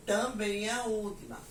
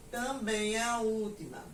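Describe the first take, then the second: No difference in how they are said.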